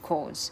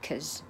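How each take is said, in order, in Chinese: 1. 该元音读得完整，未弱化。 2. 该元音弱化为弱读的 schwa。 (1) "不是cause" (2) "它是弱化成schwa cause"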